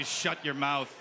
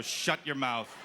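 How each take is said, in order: First: Mock-stern shut your mouth, stress on mouth; a parent's flat order, "mouth" leaned on; stern hush. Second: Mock-stern shut your mouth, stress on your; a relished, flat order, "your" leaned on; stern hush. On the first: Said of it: "I'll say". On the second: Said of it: "very therapeutic to look at a little person and go". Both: Shown as a demonstration.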